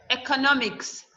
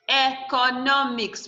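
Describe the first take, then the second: First: Said in the usual way. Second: "economics" slowly split into e, co, no, mics; syllable by syllable. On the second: Shown as a demonstration. Teacher counting four syllables for the class, "economics" slowly broken up. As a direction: sound out "economics" in four slow beats. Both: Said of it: "We have four syllables here".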